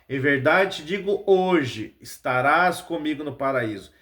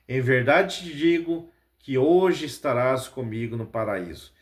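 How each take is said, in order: First: There is a pause right after hoje. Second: It runs on with no pause after hoje.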